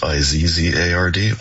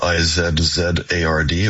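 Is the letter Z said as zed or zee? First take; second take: zee; zed. First: The letter Z is spelled out as zee. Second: The letter Z is spelled out as zed.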